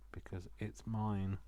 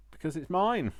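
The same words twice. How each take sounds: First: Softer, slow and firm; quiet stubborn. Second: Much higher and louder, triumphant; defiant declaration. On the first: Crafter defending her own journal, softly stubborn. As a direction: mutter it stubbornly to yourself. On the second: Crafter insisting to viewers it's her journal, loud and defiant. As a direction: declare it proudly. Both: Real, not acted.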